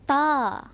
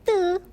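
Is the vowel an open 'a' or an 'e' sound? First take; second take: open a; e sound. First: The letter name ends in an open 'a' vowel. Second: The letter name ends in an 'e' vowel. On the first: It is the proper Arabic letter name. The speaker calls it right. "Kita sebut ta" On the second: It imitates an English-style letter name. The speaker calls it wrong. "Yang ni lah yang ramai salah. Sebab apa? Nak jadi orang putih"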